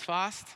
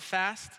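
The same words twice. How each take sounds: First: The word has a long, open British vowel. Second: The word has a short, flat American vowel. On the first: The speaker calls it right. "It's fast. You will learn proper English yet" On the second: The speaker calls it wrong. "It's not fast"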